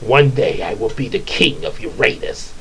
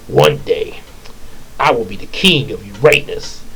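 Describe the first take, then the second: First: It is said in a put-on character voice. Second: It is said in a plain reading voice.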